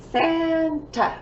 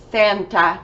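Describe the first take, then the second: First: "Santa" split, first syllable long and high. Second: Said in the usual way. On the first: Shown as a demonstration. Teacher counting syllables for pupils, "Santa" broken in two. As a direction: clap out "Santa" in two separate beats. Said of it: "Two syllables". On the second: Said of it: "We know this guy".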